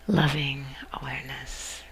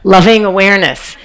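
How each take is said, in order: First: It is said softly and smoothly. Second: It is said loudly and abruptly.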